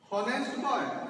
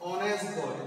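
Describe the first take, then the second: First: The word begins with an h sound. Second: The word begins with a vowel sound. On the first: The speaker calls it wrong. "হনেস্ট বয় না" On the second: The speaker calls it right. "ভাওয়েলের মতো উচ্চারিত হচ্ছে"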